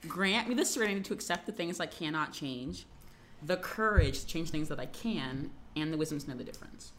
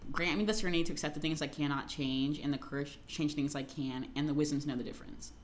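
First: It is said at a normal pace. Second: It is said very fast.

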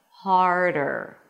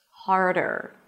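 Both takes have the same delivery.

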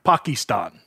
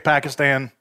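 First: It uses a fancier, less common pronunciation. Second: It uses the common, standard pronunciation. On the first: The speaker is choosing a more sophisticated-sounding variant. The speaker calls it wrong. "they pick the one that's a little bit cooler" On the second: This is the ordinary everyday way to say it. The speaker calls it right. "We all say Pakistan"

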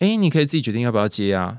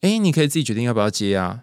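First: It is said in a cheerful, happy tone. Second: It is said in a cheerful, happy tone.

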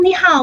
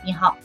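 First: It is said with a rising, upbeat tone. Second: It is said in a flat, level tone.

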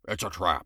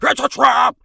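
First: It is said flat and bland. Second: It is said big and lively.

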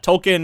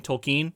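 First: The name gets its common everyday pronunciation. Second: The name gets the author's own pronunciation. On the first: The speaker calls it wrong. "the way I say it casually and have always heard it said" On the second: The speaker calls it right. "I want to respect the guy's pronunciation, so I'll try"

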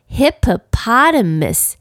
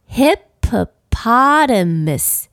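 First: The word is said at a fast pace. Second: The word is said at a moderate pace. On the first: "念快一点" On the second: "我们一起来念念看这个字"

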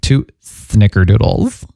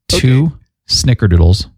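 First: The s sound is said with a lisp. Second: The s sound is said plainly, without a lisp. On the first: The speaker calls it right. "You cannot say snickerdoodles without the lisp" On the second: The speaker calls it wrong. "Hold on. Let me say this again"

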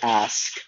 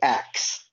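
First: The word ends with an s then k sound. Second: The word ends with a k then s sound. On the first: "I didn't say ask" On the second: "I would say axe, because every kid said axe"

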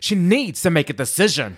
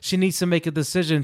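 First: It is said with pointed, expressive emphasis. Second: It is read in a flat, monotone voice. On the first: The speaker is judgmental and insistent. "it gives it that, that accent" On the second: It is a neutral statement. "you're reading it in your own kind of mono, very mono"

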